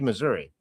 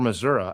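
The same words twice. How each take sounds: First: It is said the way outsiders say it. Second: It is said the way locals say it.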